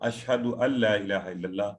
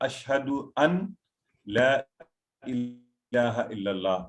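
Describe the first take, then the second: First: The words are joined together in connected speech. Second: Each word is said separately, as written. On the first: The speaker calls it right. "Arabic language rules uh, would require us to read it like" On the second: The speaker calls it wrong. "in reading, it is ... in actual text"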